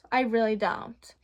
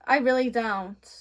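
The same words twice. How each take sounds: First: Said in the usual way. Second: Laughing through the words; amused laugh while saying it; giggling denial. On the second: Real, not acted.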